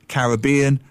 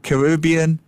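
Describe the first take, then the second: First: Caribbean said ka-RIB-ee-an, stress on RIB; Caribbean with the weight on RIB. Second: Caribbean said ka-ri-BEE-an, stress on BEE; Caribbean with the weight on BEE; stress on the bean. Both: Shown as a demonstration. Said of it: "I will give you the definitive answer".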